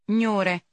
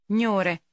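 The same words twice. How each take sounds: The two takes are said the same way.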